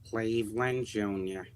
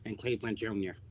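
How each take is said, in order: First: It is said slowly. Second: It is said fast.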